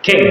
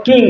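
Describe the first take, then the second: First: কিং opening on a puffed KH; English aspirated K. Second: কিং with a plain, unaspirated K; Bengali-style hard K. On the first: Teacher showing how English speakers say it, aspirated KH in কিং. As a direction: puff the K of কিং into KH. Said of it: "তাহলে কিভাবে বলবে?". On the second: Teacher showing students their habit, plain Bengali K in কিং. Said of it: "যেগুলোকে ক দিয়ে উচ্চারণ করো". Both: Shown as a demonstration.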